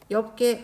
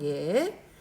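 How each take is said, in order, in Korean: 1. 겹자음은 비읍 소리로 발음해요. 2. 겹자음은 리을 소리로 발음해요. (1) "아니에요" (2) "리을로 소리 냅시다"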